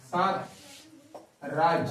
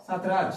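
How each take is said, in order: First: Syllables stretched very long and slow; drawn out name. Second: Said in the usual way. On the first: Shown as a demonstration. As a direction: pull the word out as far as it goes. (সাতরাজ শব্দটা খুব টেনে ধীরে বলা) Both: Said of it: "বলে যত ইচ্ছে টানা যেতে পারছে".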